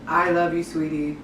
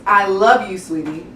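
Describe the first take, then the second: First: Dull, lower, falling sweetie; a lifeless I love you, sweetie; flat wrong way. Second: "love" punched louder and falling, "sweetie" rising; loving I love you, sweetie with real inflection; right way, inflected. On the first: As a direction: say it with no feeling at all. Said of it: "is not the way to go". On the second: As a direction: lean into love, lift sweetie. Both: Shown as a demonstration.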